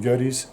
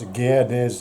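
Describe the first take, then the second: First: The name is said in a shortened form. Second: The name gets its full German pronunciation. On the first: This is the name as Australians say it. The speaker calls it wrong. "been rounded down to a sort of shorter form" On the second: This is the name's original form. The speaker calls it right. "Gerdes is the proper pronunciation of the name"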